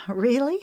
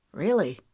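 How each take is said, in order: First: Incredulous. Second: Said in the usual way. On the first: Acted. She asks incredulously.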